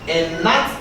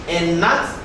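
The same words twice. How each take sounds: Both takes have the same delivery.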